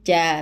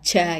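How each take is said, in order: First: The syllable is plain, with no click or puff. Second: The syllable has an added click or breath puff. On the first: The speaker calls it right. "Jadi ja biasa aja" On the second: The speaker calls it wrong. "bukan ja ja gitu"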